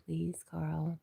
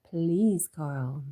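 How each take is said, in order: First: Said in the usual way. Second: "Please" louder and stressed, "Carl" dropping; emphatic plea. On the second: Acted. Streamer echoing a viewer's plea to Carl, emphatic "Please". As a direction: lean hard on "Please", let "Carl" fall.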